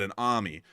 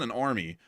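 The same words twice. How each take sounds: First: It is said in a New York accent. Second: It is said in a plain, neutral accent. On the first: "put it in a New York accent" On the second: "not an army"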